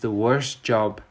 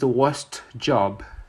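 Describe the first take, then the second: First: The t in worst is dropped. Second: The t in worst is pronounced. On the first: The speaker calls it right. "We remove the t" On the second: The speaker calls it wrong. "we don't say"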